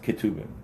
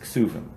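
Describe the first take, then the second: First: The middle consonant is pronounced as a T. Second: The middle consonant is pronounced as an S.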